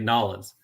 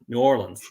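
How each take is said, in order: First: The syllables are squeezed together into two. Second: Each syllable is spoken separately and fully. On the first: This is how many locals say it. "lots of people from New Orleans say" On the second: This is how an outsider from Texas says it. "I'm from Texas, so I don't I don't say it that way. I say"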